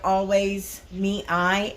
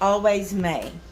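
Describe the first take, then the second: First: The last word sounds like two syllables, mee-eye. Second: The last word sounds like one syllable, may. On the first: The speaker calls it wrong. "I kept pronouncing the site" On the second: The speaker calls it right. "It's Always May"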